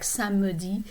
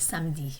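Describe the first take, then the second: First: The middle E is sounded as a vowel. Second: The middle E is almost silent. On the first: "occasionally, I will hear people pronounce it like" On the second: "the main pronunciation would be samedi"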